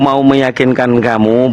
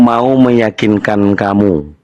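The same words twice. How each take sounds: First: It is read at a normal pace. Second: It is read slowly and deliberately.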